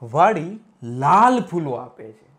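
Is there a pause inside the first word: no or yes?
yes. A short pause splits the first word in two. The garden gives red flowers. "જે બગીચો છે એને વાડી શબ્દ"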